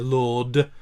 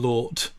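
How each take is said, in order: First: The word ends with a voiced D sound. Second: The word ends with an unvoiced T sound. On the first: The speaker calls it right. "I'd always much rather hear Lord" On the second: The speaker calls it wrong. "because that's not a word"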